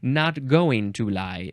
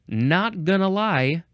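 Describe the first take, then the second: First: "Going to" is said fully as two words. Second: "Going to" is reduced to "gonna". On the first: It is very proper and formal. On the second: It is casual, everyday speech.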